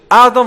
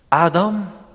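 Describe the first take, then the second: First: The name is called in a harsh, accusing tone. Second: The name is called in a warm, inviting tone. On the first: The caller comes to punish. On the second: The caller comes to welcome back.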